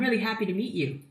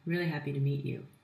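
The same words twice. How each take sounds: First: It is said in a bright, energetic voice. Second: It is said in a flat, monotone voice. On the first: The speaker comes across as full of positive energy. The speaker calls it right. "You want to project positive, vibrant energy?" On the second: The speaker does not come across as energetic. The speaker calls it wrong. "It is just rather droll and monotone"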